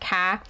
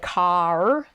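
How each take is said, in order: First: The final R sound is dropped. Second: The final R sound is clearly pronounced. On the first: "they don't pronounce their R's in the same way. They might say ka" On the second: "I didn't say car"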